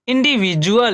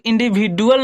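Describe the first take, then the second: First: The middle consonant is a j sound. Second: The middle consonant is a plain d sound. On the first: The speaker calls it right. "यहाँ डी की ध्वनि क्या होगी, ज" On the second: The speaker calls it wrong. "यहाँ डी की ध्वनि ड नहीं होगी, इसे हम लोग इंडिविजुअल नहीं पढ़ेंगे"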